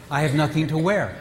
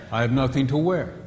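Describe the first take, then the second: First: Said one way with one meaning; first reading of the same words. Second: The same words said another way; second reading with a different meaning; other meaning. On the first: A husband hears nothing to wear one way. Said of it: "say the same exact words". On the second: The same words said differently, with another meaning. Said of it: "but you mean something different". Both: Shown as a demonstration.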